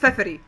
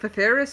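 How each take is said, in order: First: The name does not end like 'Ferris'. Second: The name ends sounding like 'Ferris'. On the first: The speaker calls it right. "her name is Feferi" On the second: The speaker calls it wrong. "He imagines Feferi's name is uh, ... like Ferris wheel"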